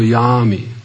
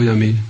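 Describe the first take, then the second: First: The A vowel is long. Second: The A vowel is short. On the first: The speaker calls it right. "This is yami, long A" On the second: The speaker calls it wrong. "It's also wrong"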